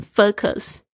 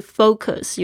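First: Focus with its first vowel cut short, like "fuck-us"; common mispronunciation. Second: FOCUS with a long OH, as in "foe-cus"; correct pronunciation. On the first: Teacher shows how some people misread it, mispronunciation. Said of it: "有些人会念成". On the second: Teacher points learners to the proper sound, correct pronunciation. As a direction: say focus with a full, rounded OH in the first syllable. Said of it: "注意一下它的发音是". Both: Shown as a demonstration.

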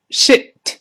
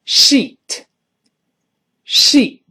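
First: Shit 的元音读短促; 领读 shit，i 读短音; 短元音. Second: Sheet 的元音拉长; 慢速领读 sheet，ee 读长音; 长元音. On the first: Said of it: "那如果短音呢". (shit 读短音，不拉长) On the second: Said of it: "哎，长音。". (sheet 读长音“一”) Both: Shown as a demonstration.

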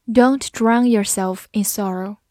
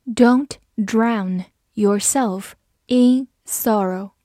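First: Said in the usual way. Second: Slow, careful, word by word; slow reading. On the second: Shown as a demonstration. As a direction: read it slowly so learners can repeat. (慢速清楚地读) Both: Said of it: "好，慢读一遍".

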